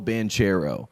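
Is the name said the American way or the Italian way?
American. The name is said the American way.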